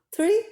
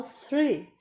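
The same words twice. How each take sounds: First: Tree said with a plain t instead of th; tree with a hard t, no tongue between the teeth; wrong tree. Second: Three with the tongue between the teeth; correct three. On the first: Teacher showing students tree with a plain t as the mistake. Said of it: "se eu falo tree, eu estou falando árvore". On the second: Teacher showing students the right three with the tongue between the teeth. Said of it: "a língua é entre os dentes". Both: Shown as a demonstration.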